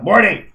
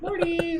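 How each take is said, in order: First: It is said in an annoyed tone. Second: It is said in a sweet pet voice.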